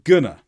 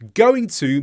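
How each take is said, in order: First: The words are reduced and run together. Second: Both words are said fully and separately.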